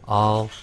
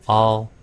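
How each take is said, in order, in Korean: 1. 모음은 열려 있고, 'uh'(한국어 어)처럼 발음됩니다. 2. 모음은 열려 있고, 'uh'(한국어 어)처럼 발음됩니다.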